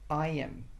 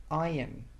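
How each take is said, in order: The two takes are said the same way.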